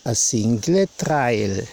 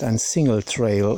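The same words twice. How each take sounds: First: It is said with a Southern German sound. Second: It is said with a standard pronunciation. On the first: This is how the app says it. "Das hört sich immer so süddeutsch an" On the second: This is the intended pronunciation. "Sie meint ein Single Trail"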